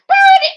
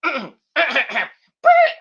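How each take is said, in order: First: Very high, very loud metal scream of "Burn it!"; [name] scream. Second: Louder, higher attempt at "Burn it!" that cracks into a laugh; failed scream. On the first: Retold or imitated. Vlogger imitating his metal singer buddy, all-out scream. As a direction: shriek "Burn it!" like a metal frontman, full power. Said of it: "as my good buddy, [name] said". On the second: Vlogger retrying the metal scream, laughing as voice gives. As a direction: try the scream again and break down laughing. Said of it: "I can't save it".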